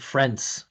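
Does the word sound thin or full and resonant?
thin. It sounds thin, held in the mouth, little vibration. The speaker calls it wrong. "there's no vibration there"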